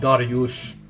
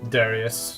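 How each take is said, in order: First: The name is said the Persian way. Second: The name is said the English way. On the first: This is how Iranians say the name. "Iranians pronounce it Dariush" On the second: This is not how Iranians say the name. "not Darius"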